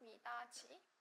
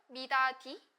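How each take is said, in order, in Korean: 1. 마지막 음절은 j 소리로 시작해요. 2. 마지막 음절은 d 소리로 시작해요. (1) "미다지문이라고 하죠. 이게 바로 국외음화가 일어난 건데요" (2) "그냥 연음이 되거든요. 근데 이 경우에는 미다디문이라고 하지 않죠"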